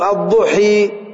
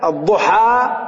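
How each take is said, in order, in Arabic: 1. الحركة الأخيرة تميل نحو صوت 'e'. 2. الحركة الأخيرة صوت 'a' مفتوح. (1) "ايش عملت بفتحة الحاء؟ كسرت" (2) "فتحة"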